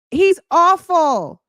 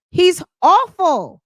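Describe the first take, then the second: First: Slow, in a put-on voice; slow, mock-voiced repeat; disgusted, put-on voice. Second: High, slow and drawn out in disgust; real contempt, pitched up. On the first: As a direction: say it again in a different voice. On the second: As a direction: stretch it out, fed up with him. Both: Real, not acted.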